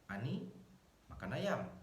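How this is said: There is a pause after the word Ani. "komanya setelah Ani"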